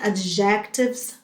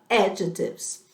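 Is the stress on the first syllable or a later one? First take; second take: later; first. First: The stress falls on a later syllable. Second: The stress falls on the first syllable. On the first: The speaker calls it wrong. "muita gente pronuncia adjectives, mas não é" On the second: The speaker calls it right. "A pronúncia correta é adjectives, com sílaba tônica na primeira ah, sílaba"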